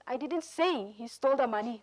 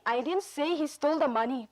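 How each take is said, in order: First: The word say is stressed. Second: The word stole is stressed. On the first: "say polong le ajur chi pi" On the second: "emphasis stole"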